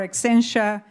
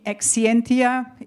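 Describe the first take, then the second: First: The name has an American English pronunciation. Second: The name has a European English pronunciation. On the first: "if you pronounce it in American English" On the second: "if you pronounce, pronounce it in European English"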